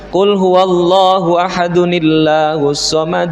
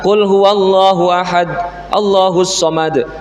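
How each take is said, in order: First: 'Ahad' is linked to 'Allahus' with an n sound. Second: 'Ahad' and 'Allahus' are said without a linking n. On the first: The speaker calls it right. "kalau diwasolkan" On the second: The speaker calls it wrong. "Jadi tidak bisa"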